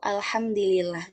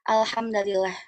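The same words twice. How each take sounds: First: The d takes i, the l takes i. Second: The d takes a, the l takes i. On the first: "mengkasrohkan huruf dalnya eh, dan eh, huruf lamnya juga" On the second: "dengan menasabkan eh, huruf dalnya"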